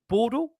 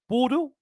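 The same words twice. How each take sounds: First: The name sounds like the French city Bordeaux. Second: The name sounds like the French city Bordeaux.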